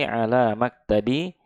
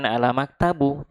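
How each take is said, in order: First: The word ends with an i vowel. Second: The word ends with a u vowel. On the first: The speaker calls it right. "tapi ala maktabi" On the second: The speaker calls it wrong. "Jadi bukan ala maktabu"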